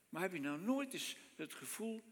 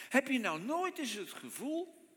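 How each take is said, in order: First: Softer, intimate heb je nou nooit eens het gevoel; quiet repeat. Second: Nooit lifted high with a rising question; stress on nooit. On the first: Preacher repeating his question to the congregation, softer. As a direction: drop the voice and ask again gently. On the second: Preacher asking the congregation about doubt, nooit stressed. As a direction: lean into nooit, higher. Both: Shown as a demonstration. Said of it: "rhetorical question repeated".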